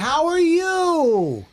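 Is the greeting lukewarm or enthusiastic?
enthusiastic. It is said in a warm, enthusiastic tone.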